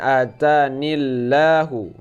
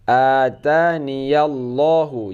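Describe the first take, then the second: First: No 'ya' sound is said before 'llahu'. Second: A clear 'ya' sound is said before 'llahu'. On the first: The speaker calls it wrong. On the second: The speaker calls it right. "Jadi ya-nya tetap dibaca"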